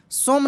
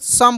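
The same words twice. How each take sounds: First: "सोम" said with a long o, like "som"; "सोम" with a long o, not the short vowel; wrong pronunciation. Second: "सम" said with a short a vowel, like "sum"; "सम" with a short vowel, not "सोम"; correct pronunciation. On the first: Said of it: "सोम नहीं पढ़ेंगे मेरे दोस्त". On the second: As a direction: read "सम" short and quick, as in "sum". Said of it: "सम पढ़ेंगे". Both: Shown as a demonstration.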